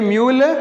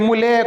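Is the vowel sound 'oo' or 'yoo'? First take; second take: yoo; oo. First: It is said 'myool', with a y sound. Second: It is read as 'moo-lay', with no y sound. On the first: The speaker calls it right. "यू को हम यू पढ़ते हैं" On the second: The speaker calls it wrong. "ऐसा नहीं"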